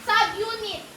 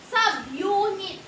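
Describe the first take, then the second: First: Said in the usual way. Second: "Subunit" slowly stretched, syllable by syllable; drawn-out clue. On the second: Real, not acted. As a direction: draw out "Subunit" so the guesser can read it. Repeats clue for puzzled guesser. (dahan-dahang "Subunit", hinahati ang bawat pantig)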